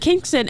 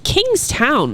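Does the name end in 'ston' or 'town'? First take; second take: ston; town. First: The last syllable is said as 'ston'. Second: The last syllable is said as 'town'. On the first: The w is dropped as locals do. "So I kept saying Kingston" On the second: It follows the spelling. "looking at the spelling I was like, it's Kingstown"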